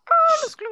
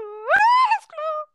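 First: Sudden much higher, louder squealing shout; mock shout. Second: Much higher, very slow wailing cry; mock wail. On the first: Boy squeals at his friend's ridiculous hair claim. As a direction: yelp it out in mock outrage. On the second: Boy wails at his friend in mock despair. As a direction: stretch it into a long theatrical wail.

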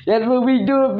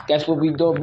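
First: Teasing pitch-up. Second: Said in the usual way. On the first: Pretend. Repeated higher teasing. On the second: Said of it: "Oh, really? Dude".

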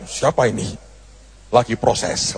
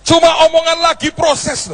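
First: Low, soft puzzled mutter; a hint of a confused Putin; surprised Putin. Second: Preacher stressing the little phrase "lagi proses"; stressed phrase. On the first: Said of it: "Presiden Putin akan kaget". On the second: Shown as a demonstration. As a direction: hit "lagi proses" high and hard.

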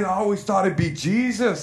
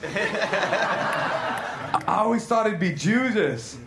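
First: Said in the usual way. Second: Slow, cracking up mid-line; barely getting the words out for laughing; slow line broken by laughter; laughing through it. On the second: Acted.

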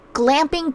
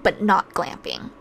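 First: Glamping said as a plain, slightly raised label; just name it: glamping. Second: Not leaned on, glamping dropped low; stress on not. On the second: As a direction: hit the word not, then let glamping fall. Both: Shown as a demonstration.

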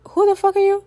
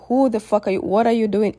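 First: High, shocked cry of who are you; stunned outburst. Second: Said in the usual way. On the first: Retold or imitated. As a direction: blurt it out in high disbelief. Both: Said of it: "In my mind, I'm just like".

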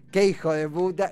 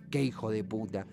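First: Playful, almost fond insult; light teasing. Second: Low, soft, heavy curse; bitter venting. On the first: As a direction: say it as a cheeky joke. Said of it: "en el sentido más liviano". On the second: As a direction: mutter it as a real release of anger. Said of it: "o en forma de expiación". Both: Shown as a demonstration.

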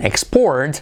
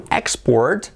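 First: ExPORT, as the verb; stress on second syllable. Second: EXport, as the noun; stress on first syllable. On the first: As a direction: lean on PORT in export. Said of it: "sería el verbo". (export con acento en la segunda sílaba) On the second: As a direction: punch EX in export. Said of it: "sería el sustantivo". (export con acento en la primera sílaba) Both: Shown as a demonstration.

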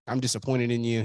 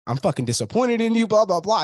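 First: Said in the usual way. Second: High-pitched imitation of an angry dressing-down; mock scolding. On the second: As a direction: act out the telling-off you expected, pitched well up. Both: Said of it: "I thought he was gonna scream at me".

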